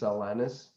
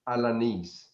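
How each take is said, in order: First: The name is said with an English pronunciation. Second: The name is said with a Spanish pronunciation. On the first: "But I guess in English it's Alanis" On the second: "That's how you how you pronounce it in Spanish"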